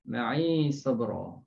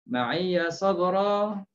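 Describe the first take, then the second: First: The word ends in 'i' with no 'ya' syllable. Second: The word ends with a voweled 'ya' syllable.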